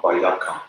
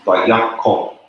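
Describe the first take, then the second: First: Bayaka ending in an a sound; wrong pronunciation. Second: Bayako with a clear final o; correct pronunciation. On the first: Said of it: "not Bayaka". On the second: Teacher models correct Bayako against Bayaka. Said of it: "pronounced Bayako, not Bayaka". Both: Shown as a demonstration.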